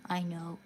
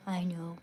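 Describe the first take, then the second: No difference in how they are said.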